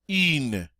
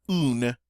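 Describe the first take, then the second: First: "in" as "une", "ee" through rounded lips; French U. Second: "un" as "oon"; English-style U. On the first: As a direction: pucker tightly for "in". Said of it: "Do you hear the difference?". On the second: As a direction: say "un" with a plain "oo". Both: Shown as a demonstration.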